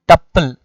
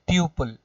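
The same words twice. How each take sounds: First: The first syllable rhymes with couple. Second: The first syllable does not rhyme with couple. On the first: The speaker calls it right. "It is tuple, ... rhyming with the couple" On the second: The speaker calls it wrong. "not tuple"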